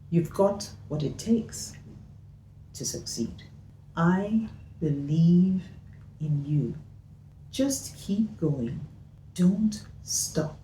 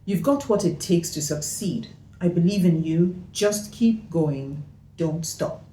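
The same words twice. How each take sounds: First: It is said with pauses between sentences. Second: It is said quickly without pauses.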